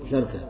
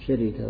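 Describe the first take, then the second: First: The r has no vowel before the k. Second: The r is followed by an i vowel. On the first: "فتح فسكون" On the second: "فتح فكسر"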